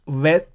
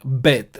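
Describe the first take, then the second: First: The word begins with a V sound. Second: The word begins with a B sound. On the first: The speaker calls it wrong. "it is not pronounced Veth" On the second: The speaker calls it right. "but Bet, B sound"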